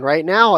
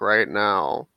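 First: The voice sounds happy and lively. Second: The voice sounds bored and flat. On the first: "I sound like I'm pretty happy" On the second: "I sound like I'm really bored"

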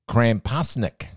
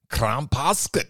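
First: The word is said in a plain, ordinary accent. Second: The word is said in a put-on foreign accent.

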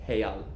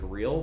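First: It begins with an H-like sound. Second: It begins with an English R sound. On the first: "they pronounce the R's as H's" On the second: "so it's like real"

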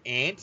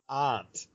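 First: It rhymes with the word for the insect. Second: It has a broad vowel, like in 'father'. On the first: This is how the listener's region says it. "you guys pronounce it aunt, as in A-N-T, like the creature" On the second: This is how most other regions say it. "everywhere else in the world that I know of is pronounced aunt"

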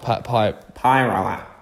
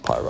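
First: The name is said with an anglicized pronunciation. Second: The name is said with a Māori-style pronunciation. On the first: The speaker calls it wrong. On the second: The speaker calls it right. "But that's Pyro"

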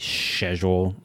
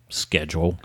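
First: It is said in a British accent. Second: It is said in a non-British accent. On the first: "the British say schedule" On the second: "instead of schedule"

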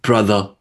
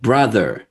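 First: The R sound is dropped, AAVE style. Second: The R sound is pronounced.

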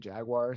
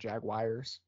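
First: The second syllable does not sound like 'wire'. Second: The second syllable sounds like 'wire'. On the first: The speaker calls it right. "how we say Jaguars" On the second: The speaker calls it wrong. "not Jaguars"

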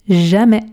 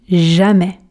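Both takes have the same delivery.

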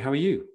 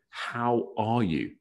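First: It is asked casually, as a throwaway greeting. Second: It is asked sincerely, with real interest.

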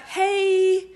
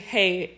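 First: It is said in a mild, friendly way. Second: It is said in a mean, scary way.

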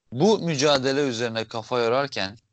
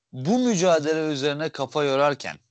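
No difference in how they are said.

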